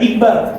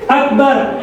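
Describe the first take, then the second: First: The first vowel sounds like 'i'. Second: The first vowel sounds like 'a'. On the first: The speaker calls it wrong. "bukan Hamzah kasroh I" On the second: The speaker calls it right. "Hamzah fathah A"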